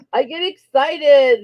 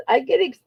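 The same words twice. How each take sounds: First: Slow, lightly voiced giant; Andre the Giant voice. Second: Said in the usual way. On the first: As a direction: drawl it out like a big giant. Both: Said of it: "that was my Andre the Giant voice".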